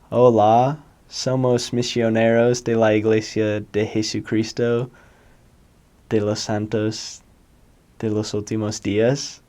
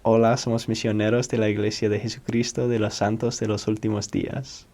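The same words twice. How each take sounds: First: Spanish in a hard American accent; heavy gringo-accented Spanish, like a green missionary. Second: Fluent Spanish accent with pure vowels; quicker, connected Spanish pronunciation; best attempt at a native-like Spanish accent; learned Spanish accent. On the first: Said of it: "what a gringo accent would sound like". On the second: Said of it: "My best attempt at my accent that I learned". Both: Shown as a demonstration.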